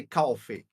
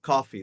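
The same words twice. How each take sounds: First: "coffee" as "caw-fee", New York style. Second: Said in the usual way. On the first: Shown as a demonstration. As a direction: round the first vowel of "coffee" into "aw". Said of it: "They say coffee". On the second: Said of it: "not coffee".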